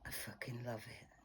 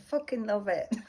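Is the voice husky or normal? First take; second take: husky; normal. First: It is said in a husky voice. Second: It is said in a normal voice.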